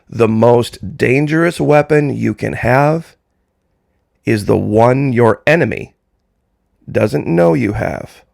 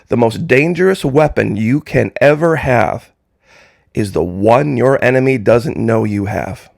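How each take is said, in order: First: It is said much more slowly. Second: It is said at normal speed.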